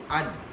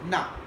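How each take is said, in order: First: The word is reduced to a weak 'un'. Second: The word is reduced to a weak 'na'. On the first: "that and is weakened to un" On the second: "reduced to na sound"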